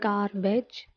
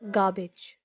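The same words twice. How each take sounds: First: The word ends with a long 'beige' sound. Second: The word ends with a short 'ij' sound. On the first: The speaker calls it wrong. "they call it beige" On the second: The speaker calls it right. "it becomes where to adding ij"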